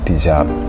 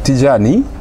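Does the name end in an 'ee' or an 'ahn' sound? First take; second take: ahn; ee. First: The name ends in an 'ahn' sound. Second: The name ends in an 'ee' sound. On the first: This is the original form of the name. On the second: This is the Pular form of the name.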